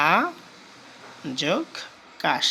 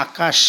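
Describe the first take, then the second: First: আকাশ said in two parts, আ then কাশ, with a pause between; split into syllables. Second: Said in the usual way. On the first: Shown as a demonstration. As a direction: break আকাশ into আ and কাশ, one beat each. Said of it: "অর্থাৎ আমাকে ভেঙে ভেঙে উচ্চারণ করতে হবে". (আকাশ শব্দটা আ আর কাশ ভেঙে ভেঙে উচ্চারণ) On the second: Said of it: "এই আকাশ শব্দটা আমি যদি উচ্চারণ করতে চাই".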